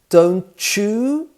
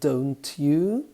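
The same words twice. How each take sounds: First: The t and y blend into a ch sound. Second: The t and y sounds stay separate. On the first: "two sounds blend together" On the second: "instead of"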